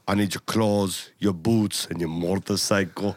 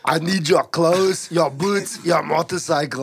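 First: Low, slow Terminator impression; measured Austrian-accented menace; Arnold. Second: Full-voiced, slow Austrian impression; emphatic cyborg demand, Austrian accent; Arnold. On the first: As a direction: intone it deep like an Austrian cyborg. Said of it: "this is what we gotta say". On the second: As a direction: do the Terminator with a thick Austrian accent. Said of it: "jerking off to too much Arnold".

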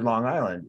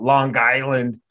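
First: Said in the usual way. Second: "Long Island" run together as "Lawn Guyland"; hard g into "Island", Long Island accent; mimicked Long Island accent on "Long Island". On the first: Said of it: "the only thing that came out". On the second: Shown as a demonstration. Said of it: "when I would say it".

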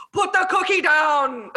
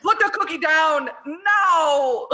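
First: Said slowly, quoting the movie; slow, deliberate movie line; slow quoted line. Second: Slow, laughing through the line; laughing quote. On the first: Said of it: "my favorite line of the whole movie". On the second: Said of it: "my favorite line". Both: Retold or imitated.

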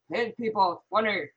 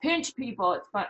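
First: Connor voice. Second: Said in the usual way. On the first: Retold or imitated. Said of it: "let me do my Connor voice". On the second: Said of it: "He'll yell".

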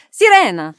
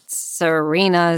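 First: Sirena with an Italian tapped r and open vowels; Italian pronunciation. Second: Said in the usual way. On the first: Shown as a demonstration. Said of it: "not Serena speaking Italian". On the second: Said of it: "it's Sirena".

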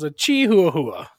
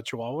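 First: "A Chihuahua" said slowly as chee-hoo-ah-hoo-ah, every letter sounded; spelled-out Chihuahua. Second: Said in the usual way. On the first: Retold or imitated. Telling his friend how Creepy Dave says "A Chihuahua", slowly sounding it out. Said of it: "and he goes". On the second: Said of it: "He's talking about a Chihuahua".

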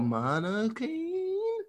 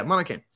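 First: "Monocaine" drawn out on a high held ending; unsure of name. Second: Said in the usual way. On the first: Real, not acted. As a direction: stretch "Monocaine" slowly, as if testing the name.

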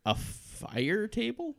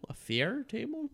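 First: "fire" said slowly, like fire; reading "fire table" slowly, unsure; mispronounced fire. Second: "fair" said as fair, rising; correcting to "fair table"; corrected to fair. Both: Shown as a demonstration.

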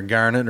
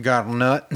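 First: Garnet said again with a firm hard G and clear r, like Garnet, settling the name; corrected name. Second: Unsure first go at Garnet, rising and softened; first try at the name. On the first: Naming a trail, correcting her own pronunciation. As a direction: correct yourself, saying Garnet firmly. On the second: Naming a trail, unsure first pronunciation. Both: Real, not acted. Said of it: "or whatever you call it".

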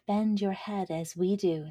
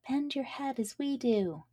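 First: Corn's voice. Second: Higher, lilting flower chorus; flowers' voice. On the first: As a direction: say it steadier, closer to own voice. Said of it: "said the corn". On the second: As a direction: sing it up like little flowers. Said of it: "said the flowers". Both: Acted.

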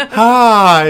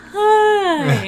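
First: High, loud, gleeful hi; loud goofy hi. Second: High, loud, slurred hi; mimicking drunk hi. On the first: Shown as a demonstration. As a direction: belt out a goofy greeting. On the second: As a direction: tease him with a woozy drunk hi. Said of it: "You sounded all drunk, like".

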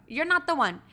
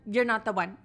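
First: "You're not the one" pitched up with weight on "not"; a firmer second "You're not the one"; emphatic repeat. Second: Said in the usual way. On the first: Real, not acted. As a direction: hit "not" harder and higher. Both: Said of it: "repeated for emphasis".

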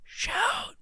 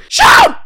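First: Whispered, much softer, hushed; whispered shout. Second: Yelled, much higher and louder; loud shout. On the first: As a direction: hush it to a whisper. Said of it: "[name], inside voice". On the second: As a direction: belt it out as a shout. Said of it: "I did wanna do a little shout out". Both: Acted.

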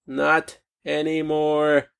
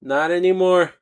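First: Slow emphatic repeat. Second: Said in the usual way. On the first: Real, not acted. To the viewers, driving the point home slowly. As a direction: let each word sink in, slowly.

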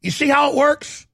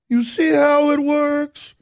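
First: Said in the usual way. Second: High, slow, put-on Southern drawl; sweet Southern voice. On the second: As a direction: do a mock sugary Southern governor. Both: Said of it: "talking like this in a sweet Southern voice".

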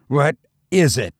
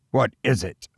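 First: Frantic repeat. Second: Terrified question. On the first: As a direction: push the repeated What is it up in rising panic. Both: A narrator's reading. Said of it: "Terrified, I continued to repeat".

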